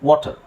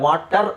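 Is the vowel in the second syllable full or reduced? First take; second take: reduced; full. First: The second syllable has a weak schwa vowel. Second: The second syllable has a full 'aa' vowel. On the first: The speaker calls it right. "ಅದು ಅಷ್ಟು ಸರಿಯಾದ ಉಚ್ಚಾರಣೆ" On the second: The speaker calls it wrong. "ಇದನ್ನು ನಾವು ಆ ಅಂತ ಹೇಳಂಗಿಲ್ಲ, ವಾಟರ್ ಅಂತ ಹೇಳಂಗಿಲ್ಲ"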